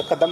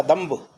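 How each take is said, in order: First: कदम ending flat on m; wrong form said. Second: कदम्ब closing on a clear mb; correct form said. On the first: Teacher naming the wrong word कदम. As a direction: say कदम without the final b. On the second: Teacher giving the right word कदम्ब. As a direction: land firmly on the b of कदम्ब. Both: Shown as a demonstration. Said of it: "कदम नहीं होता".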